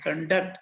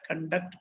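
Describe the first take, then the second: First: "conduct" stressed on the second syllable. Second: "conduct" stressed on CON; stress on first syllable. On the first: Teacher showing how stress matters, "conduct" stressed on DUCT. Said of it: "stress is also very important". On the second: Teacher showing how stress changes meaning, "conduct" stressed on CON. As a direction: hit the first syllable of "conduct", full open O. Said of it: "stress in the first syllable". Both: Shown as a demonstration.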